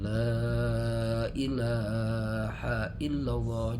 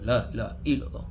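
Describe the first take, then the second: First: The phrase is said slowly and gently. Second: The phrase is said quickly and clipped. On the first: The speaker calls it right. "Kalau pelan-pelan" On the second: The speaker calls it wrong. "Jangan la la illallah"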